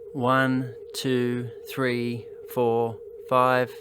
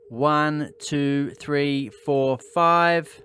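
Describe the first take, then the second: First: Background noise is quieter than in the first take. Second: The voice sounds close with background noise quietest. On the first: "the back of my cardioid microphone is pointing towards the noise source" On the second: "move the microphone closer to my mouth and turn down the input gain even further"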